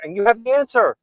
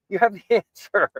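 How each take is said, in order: First: "answer" lifted high and loud, falling at the end; stress on answer. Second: "have" punched, then a laugh before "answer"; stress on have. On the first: Host telling guest, stress on answer. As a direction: land hard on "answer". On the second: Host repeating to guest, laughing stress on have. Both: Real, not acted.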